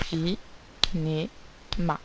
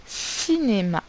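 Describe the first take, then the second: First: Cinéma in three separate beats, ci - né - ma; very slow Cinéma, a clear gap after each syllable. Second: Said in the usual way. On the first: Shown as a demonstration. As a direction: break Cinéma into syllables with long pauses. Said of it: "on entend bien trois syllabes". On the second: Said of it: "c'est le mot".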